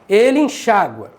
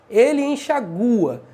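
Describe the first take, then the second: First: The stress falls on the syllable xa. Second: The stress falls on the syllable gu. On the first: "paroxítona acentuada, terminada de tom crescente" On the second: "sem o acento"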